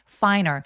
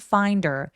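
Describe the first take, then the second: First: The d sound is dropped completely. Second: The d links into her and is heard. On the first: The speaker calls it wrong. "finer처럼 D를 아예 발음 안 하는 경우도 있을 수 있는데 잘 안 하고요" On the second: The speaker calls it right. "find의 D가 연음되면 finder 해도 되고요"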